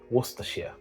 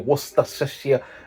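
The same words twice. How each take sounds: First: The first part is said like 'Worcester'. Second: The first part is not reduced to 'Worcester'. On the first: The speaker calls it right. "It's as simple as Worcester" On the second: The speaker calls it wrong. "You don't say Worcestershire. No, that's incorrect"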